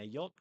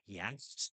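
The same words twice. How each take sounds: First: It is said without a throaty middle sound. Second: It has a throaty, raspy sound in the middle.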